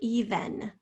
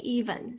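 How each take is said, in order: First: The second syllable has a clear short E vowel. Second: The second syllable has a reduced schwa vowel. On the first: "Some people say even" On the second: "Most people say even"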